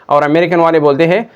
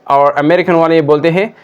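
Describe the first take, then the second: The two takes are said the same way.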